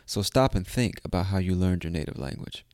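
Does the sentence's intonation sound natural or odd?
natural. The sentence has a natural, ordinary intonation. The speaker calls it right. "There you go. Much better"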